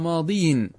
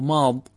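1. تنتهي كلمة "ماضي" بصوت ياء طويل. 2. تنتهي كلمة "ماضي" بصوت قصير. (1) "فأظهر الكسرة على الياء" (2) "يحذفون الياء"

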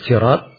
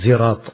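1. Diawali dengan bunyi s yang tebal, emfatik. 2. Diawali dengan bunyi z yang berdengung. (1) "pakai sad ya" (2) "Dan boleh dibaca pakai zai"

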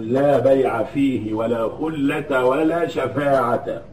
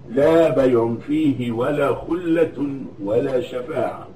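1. تنتهي الأسماء بالفتحة -a من غير تنوين. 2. تنتهي الأسماء بالتنوين، -un. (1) "بالنصب من غير تنوين" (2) "ويكون الاسم المنون بعدها"

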